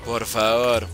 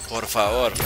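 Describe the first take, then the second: No difference in how they are said.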